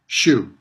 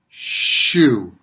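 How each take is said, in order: First: The sounds have their usual everyday length. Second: The sounds are stretched out longer than usual. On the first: "in everyday pronunciation" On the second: "I'm making the sounds longer than they usually are"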